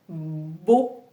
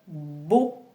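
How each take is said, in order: Both takes have the same delivery.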